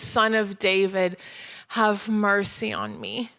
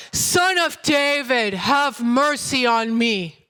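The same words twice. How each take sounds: First: Said in the usual way. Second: Slow, drawn-out calling out, mildly raised; shouted plea. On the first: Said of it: "He called out". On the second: A narrator's reading. Blind beggar to Jesus over those hushing him, shouting slowly. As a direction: cry out insistently, stretching each word. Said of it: "he shouted all the more".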